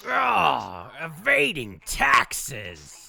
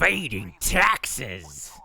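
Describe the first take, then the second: First: Very slow, drawn-out villain growl; mustache twirling villain. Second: Slow, drawn-out villain voice; mustache twirling villain. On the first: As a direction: savor the words like a scheming villain. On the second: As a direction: relish each word like a cartoon villain. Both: Pretend. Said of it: "it sounds more like Terry".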